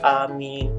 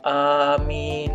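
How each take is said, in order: First: The word is said quickly and short. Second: The word is said slowly and drawn out.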